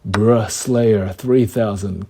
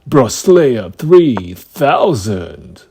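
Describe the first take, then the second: First: It is said plainly, with little energy. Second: It is said with more energy and flair.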